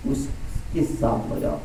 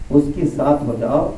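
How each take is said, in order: First: Slow breathy whisper, almost secret. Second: Said in the usual way. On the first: Acted. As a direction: hush it slowly, as if confiding. Repeated exhortation, first take hushed. (धीमी फुसफुसाहट में)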